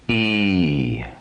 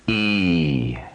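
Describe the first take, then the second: First: The vowel is held twice as long. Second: The vowel is held twice as long.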